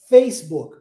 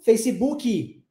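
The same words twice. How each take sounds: First: The stress is on the first syllable. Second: The stress is on the last syllable. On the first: This is how English speakers say it. The speaker calls it right. "Ó, lá no início" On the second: This is how people in Brazil say it. The speaker calls it wrong. "Dá ênfase lá no final"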